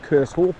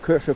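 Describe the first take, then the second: First: The word does not sound like 'ketchup'. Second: The word sounds like 'ketchup'. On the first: This is how the speaker usually says it. "I always pronounce it Kershope" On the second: This is how a local says it. "So it sounds like ketchup"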